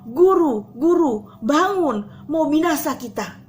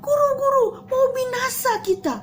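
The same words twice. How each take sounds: First: A touch of panic, louder; mild frightened call. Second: High frightened cry; panicked yelling. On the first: Disciples wake Jesus, mildly urgent call. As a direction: call out urgently but held back. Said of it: "Dan mereka bilang". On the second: Frightened disciples shout to their teacher, panicked. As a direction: shriek it like sinking men. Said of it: "sampai mereka teriak-teriak". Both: Acted.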